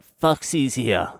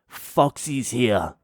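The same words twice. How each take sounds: First: Slow, higher warning; ominous girlfriend again. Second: Slow, drawn-out warning; ominous girlfriend. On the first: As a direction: stretch the name as a threat. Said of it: "She's like". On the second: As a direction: drag out the warning. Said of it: "she's like". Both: Retold or imitated.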